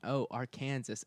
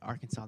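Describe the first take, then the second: First: The name is pronounced the way outsiders say it. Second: The name is pronounced the way locals say it. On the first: This is how people from elsewhere mistakenly say it. The speaker calls it wrong. "They mean, Arkansas, as if I didn't know where I live" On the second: This is how residents of the state say it. The speaker calls it right. "And I would say"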